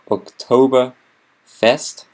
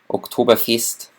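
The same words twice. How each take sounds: First: It is said with an English pronunciation. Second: It is said with a Bavarian pronunciation. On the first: The speaker calls it wrong. "Oktoberfest in English" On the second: The speaker calls it right. "Oktoberfest in Bavarian"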